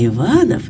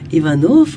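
First: The stress falls on the second syllable. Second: The stress falls on the last syllable. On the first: The name belongs to a nobleman. "а Иванов – это дворянин" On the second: The name belongs to a commoner. "Иванов – это дворник"

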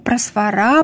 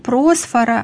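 First: The stress falls on the last syllable. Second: The stress falls before the last syllable. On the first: The speaker calls it right. "ударение на последний слог" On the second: The speaker calls it wrong. "не просфора"

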